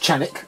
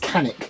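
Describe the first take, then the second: First: The name begins with a ch sound. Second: The name begins with a k sound. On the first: This is the proper pronunciation. "I think that's the proper way to say it" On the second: This is how people say it locally. "in my part of the world, that is Canik"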